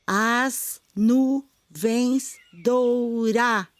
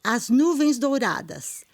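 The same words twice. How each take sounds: First: "As nuvens doura-" split into slow, separate syllables; counting syllables. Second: Said in the usual way. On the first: Shown as a demonstration. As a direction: tap out each syllable of "doura-" slowly. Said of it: "E o das seria uma sílaba átona, a gente não conta". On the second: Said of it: "Primeiro verso".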